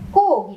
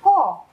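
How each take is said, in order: First: The vowel is softer and leans toward u. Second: The vowel is a plain, clear o. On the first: This is how one dialect area says it. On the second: This is how another dialect area says it.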